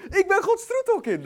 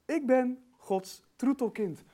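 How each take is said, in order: First: High, loud, joyful declaration; exultant shout. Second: Slow, spaced-out, measured declaration; deliberate affirmation. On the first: Real, not acted. Preacher celebrating being God's darling child, exultant shout. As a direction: proclaim it at full force, overjoyed. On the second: Shown as a demonstration. Preacher modelling what to tell the mirror, deliberate affirmation. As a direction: let each word sink in slowly.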